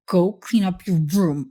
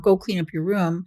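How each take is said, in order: First: It is said in a stern, serious voice. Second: It is said in a regular, calm voice.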